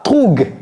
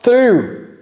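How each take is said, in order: First: The word ends with a hard g sound. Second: The word ends in a vowel, no g sound. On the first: The speaker calls it wrong. "c'est pas troug. Le G H ne se prononce pas" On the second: The speaker calls it right. "Through. All right, very good"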